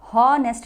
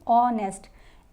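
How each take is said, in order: First: The word begins with an h sound. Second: The word begins with a vowel sound. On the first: The speaker calls it wrong. "हॉनेस्ट नहीं पढ़ेंगे" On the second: The speaker calls it right. "इसको पढ़ेंगे ऑनेस्ट"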